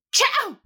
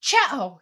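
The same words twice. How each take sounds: First: Huge high, loud sneeze. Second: Loud acted sneeze; a loud sharp Chow of a sneeze. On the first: Acted. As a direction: let a big sneeze burst out. Sneeze in the middle of talk. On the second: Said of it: "sneezed loudly".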